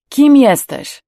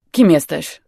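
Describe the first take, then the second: First: „Kim jesteś” much louder, high on „Kim”, then falling; insistent repeated question. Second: Said in the usual way. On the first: A narrator's reading. Older man pressing the stranger, „Kim jesteś” loud, high and insistent. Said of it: "zapytał ponownie". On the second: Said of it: "zapytał starszy".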